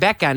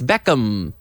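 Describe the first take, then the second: First: The name is said with a Spanish accent. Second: The name is said with an English accent. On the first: The speaker calls it wrong. "in Spain they called him David Beckham. But it's not Beckham" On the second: The speaker calls it right. "it's Beckham"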